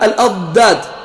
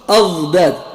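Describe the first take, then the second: First: The dad sounds like a heavy 'd' sound. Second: The dad sounds close to a 'dh' sound. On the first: "assez difficile à prononcer quand on prononce dad de cette façon-là" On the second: "comme les Tunisiens"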